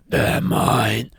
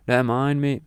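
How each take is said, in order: First: Rough, drawn-out villain voice; menacing Antichrist. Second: Said in the usual way. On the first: Acted. Antichrist claiming souls from Jesus, menacing villain voice. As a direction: claim them like a dark lord. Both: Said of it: "it'd be more like".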